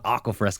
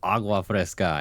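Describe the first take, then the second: First: The first word has a hard K sound. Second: The first word has a soft G sound. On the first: The speaker calls it wrong. "It's not aqua fresca" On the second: The speaker calls it right. "it's agua fresca"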